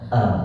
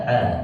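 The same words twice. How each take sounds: First: The vowel comes deep from the chest. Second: The vowel is squeezed out from the throat. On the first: The speaker calls it right. "Alif itu keluarnya di dada, pangkal tenggorokan yang paling dasar sekali itu a" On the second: The speaker calls it wrong. "kalau baca a keluar dari tenggorokan jadinya a"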